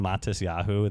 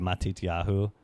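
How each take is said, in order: First: It is said with an Ashkenazi s sound. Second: It is said with a Sephardi t sound.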